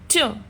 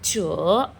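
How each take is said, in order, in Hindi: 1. पिच ऊँचे से नीचे तेज़ी से गिरती है। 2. पिच नीचे जाती है, फिर थोड़ा ऊपर उठती है। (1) "फोर्थ टोन" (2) "जब ये थर्ड टोन आती है तो हल्का सा नीचे लेके जाइए, थोड़ा सा ऊपर ले जाना है। च ऐसे"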